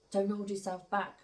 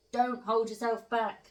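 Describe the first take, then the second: First: Said in the usual way. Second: Slow, higher and louder, leaning on "hold"; emphatic repeat. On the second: Shown as a demonstration. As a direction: drive "hold" home, stretched out and punched. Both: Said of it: "Do you get me?".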